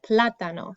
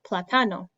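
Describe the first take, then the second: First: The stress is on the first syllable. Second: The stress is on the second syllable. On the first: The speaker calls it right. "but we pronounce it plátano. So the emphasis goes on a different syllable" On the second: The speaker calls it wrong. "if it were normal, it would sound like platano"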